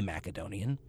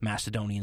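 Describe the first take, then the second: First: The c is said as a hard k sound. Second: The c is said as a soft s sound. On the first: This is closer to the original Greek form. "using the actual K in place of the C" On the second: This is the usual modern Western form. "the way we say it here in the modern West due to a softening"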